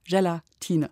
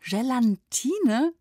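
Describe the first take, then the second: First: No n sound comes before the t. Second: An extra n sound comes before the t. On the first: The speaker calls it right. "Ohne N. Einfach Gelatine" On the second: The speaker calls it wrong. "das ist einer dieser weit verbreiteten Irrtümer"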